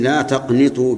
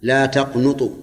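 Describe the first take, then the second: First: "تقنطوا" with an i vowel on the nun; kasra on the nun. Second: "تقنطوا" with a u vowel on the nun; damma on the nun. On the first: Teacher reads the verse with kasra, "تقنطوا" said taqnitu. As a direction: say "تقنطوا" as taqnitu, short i after the n. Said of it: "بكسر النون وفتحها". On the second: Teacher shows the rare reading, "تقنطوا" said taqnutu with damma. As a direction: say "تقنطوا" as taqnutu, short u after the n. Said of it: "وقرئ بضمها". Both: Shown as a demonstration.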